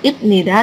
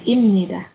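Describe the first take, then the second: First: "ibnida" with a stop before -nida, ip-ni-da; "ibnida" with B or P, not M; unassimilated P/B sound. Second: "imnida" with M before -nida, slowly; "imnida" with a nasal M replacing the stop; assimilated M sound. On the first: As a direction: say "ibnida" as spelt, lips stopping the sound. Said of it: "Ini juga bukan ibnida". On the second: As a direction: say "imnida" as im-ni-da, drawn out. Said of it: "ini juga mengalami perubahan suara". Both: Shown as a demonstration.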